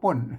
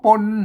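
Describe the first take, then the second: First: The word is said with a falling tone. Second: The word is said with a low tone. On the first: This is how standard Thai says it. "ภาษาไทยมันออกได้แค่เสียงโทปกติ" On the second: This is how Tai Lue and Tai Yong speakers say it. "ออกป่นเสียงเอก"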